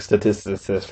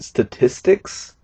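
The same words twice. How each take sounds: First: The word is rushed and comes out garbled. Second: The word is said slowly and clearly. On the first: "comes out sounding like statistics" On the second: "I usually try to say it faster than that"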